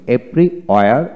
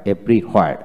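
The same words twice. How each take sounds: First: Everywhere said the British way, without the r; British everywhere, long and open; British pronunciation. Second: Everywhere said the American way, with the r; American everywhere, r sounded; American pronunciation. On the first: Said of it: "এভরিহোয়ার হচ্ছে British উচ্চারণ". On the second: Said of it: "everywhere হচ্ছে American উচ্চারণ". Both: Shown as a demonstration.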